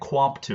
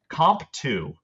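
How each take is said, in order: First: The name begins with a kw sound. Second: The name begins with a plain k sound. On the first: "I was calling it Quamp two" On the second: "I'm going to go Comp"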